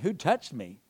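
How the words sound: It is said in a mocking tone.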